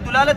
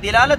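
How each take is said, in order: First: The first vowel is u. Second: The first vowel is i. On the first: "तीनों कह सकते हैं आप" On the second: "दिलालत ज्यादा औला है"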